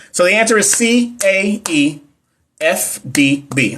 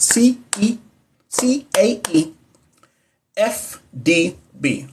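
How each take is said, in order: First: Put-on letters read out slowly, one by one, as if to a little kid; like teaching a child. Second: Slow, softer whisper, each letter drawn out; hushed child-teaching voice. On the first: Reading the answer key to viewers as if teaching her son, slowly. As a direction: sound out each letter for a small child. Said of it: "I don't know why I said it like that". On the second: Repeating the answer for viewers like teaching her little son, hushed and slow. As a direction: whisper the letters slowly like a bedtime lesson. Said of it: "I feel like I would teach my son that".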